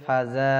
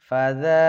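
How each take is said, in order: First: The middle consonant is a hard 'j' sound. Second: The middle consonant is a soft 'th' sound. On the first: The speaker calls it wrong. "যদি কেউ বলে ফাজা, এই ভুলগুলো হলেই কিন্তু আপনার নামাজ হবে না" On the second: The speaker calls it right. "এখানে কিন্তু সব জায়গায় জাল আছে"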